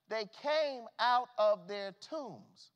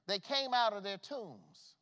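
First: "They came out of their tombs" drawn out very slowly and louder; slow emphatic repeat. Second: Said in the usual way. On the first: Shown as a demonstration. Preacher repeating the scripture to the church, slow and weighty. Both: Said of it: "repeated slower".

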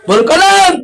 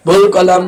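First: Raised call. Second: Said in the usual way. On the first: Shown as a demonstration. Preacher repeats phrase to the crowd.

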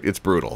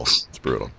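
First: Said in the usual way. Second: Lower, softer put-on voice; mock deep voice. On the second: Host echoing his own joke to Martin, mock-grave low voice.

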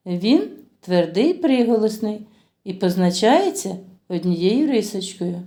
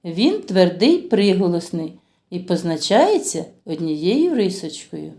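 Both takes have the same delivery.

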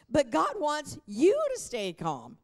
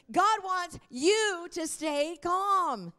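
First: Said in the usual way. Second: Higher, slow, each word driven home; emphatic repeat. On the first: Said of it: "I gotta say that again". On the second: Shown as a demonstration. Pastor repeating the line to get more amens, slow and emphatic. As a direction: preach it again for more amens. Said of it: "not enough amens".

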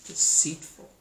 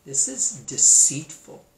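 First: Deceitful breathed out as a sharp whisper. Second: Said in the usual way. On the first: Shown as a demonstration. Narrator condemning the snake's trick, whispering Deceitful. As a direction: hiss the word Deceitful in disgust. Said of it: "repeats deceitful". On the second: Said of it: "first take".

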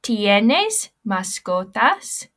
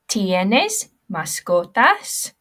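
First: ¿Tienes mascotas? said slowly and loudly with a rising question tune; slow, loud model of ¿Tienes mascotas? to be echoed; Spanish pronunciation. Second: ¿Tienes mascotas? said slowly with a rising question tune; slow, clear model of ¿Tienes mascotas? for the class to copy; Spanish pronunciation. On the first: Teacher repeats the question for pupils to copy, slow and loud. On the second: Teacher models the question for pupils to repeat, slow and clear. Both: Shown as a demonstration. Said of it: "Everybody repeat after me".

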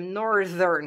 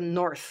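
First: "Northern" with a buzzed dental d in the middle; voiced th. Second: "North" ending in an unvoiced "th"; voiceless th. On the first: Teacher correcting to the adjective, voiced th. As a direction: say "Northern" carefully, voice on at "th". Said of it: "zicem Northern cu D". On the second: Teacher contrasting the base word, voiceless th. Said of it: "Nu mai zicem". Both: Shown as a demonstration.

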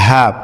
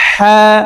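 First: হ্যাঁ as a short, light HAA; easy plain h on হ্যাঁ; brief, unforced হ্যাঁ with ordinary h; haa-e hawwaz. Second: হ্যাঁ as a long, throaty HHAA, raised pitch; haa-e hutti. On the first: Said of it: "হায়ে হাওয়াস". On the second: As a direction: squeeze the h of হ্যাঁ from mid-throat. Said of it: "হুত্তি". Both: Shown as a demonstration.

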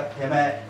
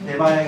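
First: てめえ ending in a long fused "ee"; Yamaguchi-style てめえ for temae; dialect vowel fusion. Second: Said in the usual way. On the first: Shown as a demonstration. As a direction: say てめえ as "temee", ae merged. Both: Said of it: "こういう発音になりますね".

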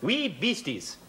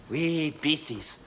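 First: Said in the usual way. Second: "Wee beasties" drawn out very slow; slow demo. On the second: Shown as a demonstration. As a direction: spell it out slowly for the class. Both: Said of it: "Here's another favourite of mine".

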